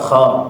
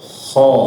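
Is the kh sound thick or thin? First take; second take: thin; thick. First: The kh sound is thin and light. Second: The kh sound is thick and heavy. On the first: The speaker calls it wrong. "jangan dibacanya tipis" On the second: The speaker calls it right. "maka dibacanya Bapak dengan tebal"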